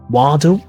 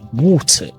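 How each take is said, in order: First: It has a flapped T and a sounded R. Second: It has a clear T and no final R. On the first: "Instead of water" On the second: "you might say water"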